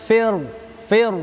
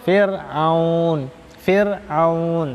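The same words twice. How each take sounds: First: "fir" with a thick dark r; "fir" said heavy and thick, the wrong reading. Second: "Fir'aun" with a thin light r; "Fir'aun" said thin and light, the right way; thin r, correct. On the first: Teacher showing the wrong thick fir. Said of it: "itu tebal". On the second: Teacher contrasting the correct thin Fir'aun. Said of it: "Tapi yang betul". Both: Shown as a demonstration.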